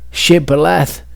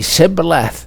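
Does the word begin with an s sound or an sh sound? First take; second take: sh sound; s sound. First: The word begins with an sh sound. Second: The word begins with an s sound. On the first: The speaker belongs to one tribe. The speaker calls it right. "What was a sh uh, for one tribe" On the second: The speaker belongs to another tribe. The speaker calls it wrong. "was a s for other tribes"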